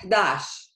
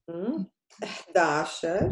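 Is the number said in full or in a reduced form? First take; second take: reduced; full. First: The words are shortened into one quick syllable. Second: Both words are said fully and separately. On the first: This is the simplified everyday form. "If you say it fast" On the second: This is the formal standard form. "the official way to say the number, which is the MSA way"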